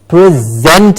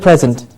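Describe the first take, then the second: First: The stress is on the second syllable. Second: The stress is on the first syllable. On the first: It means to give something. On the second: It is a gift.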